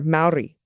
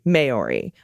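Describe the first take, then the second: First: The R is slightly rolled. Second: The R is said plain, not rolled. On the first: The speaker calls it right. "The proper pronunciation is Maori, slightly rolling the R" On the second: The speaker calls it wrong. "a common mistake"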